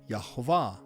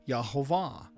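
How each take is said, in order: The two takes are said the same way.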